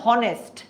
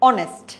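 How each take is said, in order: First: The word begins with an h sound. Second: The word begins directly with a vowel. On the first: The speaker calls it wrong. "আমি কিন্তু বলছি না যে হনেস্ট" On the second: The speaker calls it right. "আমরা বলছি অনেস্ট"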